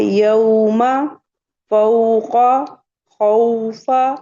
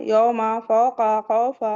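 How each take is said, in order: First: Loud, separate "यौमा फौका खौफा", au gliding into u; emphatic slow model, each word rising; correct leen reading. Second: "यौमा फौका खौफा" with flat o vowels, run together; yoma, foka, khofa without the glide; wrong habitual reading. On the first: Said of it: "पढ़ना है". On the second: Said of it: "ऐसे नहीं पढ़ना है". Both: Shown as a demonstration.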